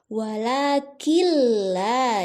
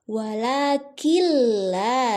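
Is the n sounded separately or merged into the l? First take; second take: merged; merged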